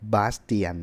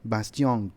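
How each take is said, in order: First: The name ends with an 'tee-an' sound. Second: The name ends with a nasal 'tee-ong' sound. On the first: This is how Thai people say the name. "คนไทยจะเรียกเขาว่าบาสเตียน" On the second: This is the real French reading of the name. "ถ้าอ่านเป็นฝรั่งเศสจริงๆเนี่ยชื่อเขาอ่านว่าบาสติอง"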